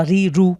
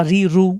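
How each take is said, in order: The two takes are said the same way.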